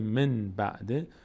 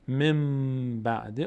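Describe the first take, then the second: First: An n sound is said before the b. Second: An m sound is said before the b. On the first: The speaker calls it wrong. "از اینکه بگیم من بعده" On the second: The speaker calls it right. "مم بعده آسان تره"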